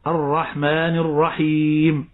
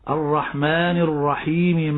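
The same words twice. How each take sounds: First: The final m has no vowel after it. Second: The final m carries a short i vowel. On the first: The reciter stops after this word. "فأنت تقف على كلمة الرحيم بسكون الميم" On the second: The reciter runs on into the next verse. "إذا وصلت ... الميم هنا متحركة بالكسر"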